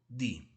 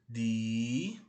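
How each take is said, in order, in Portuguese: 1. A vogal é encurtada. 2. A vogal é prolongada.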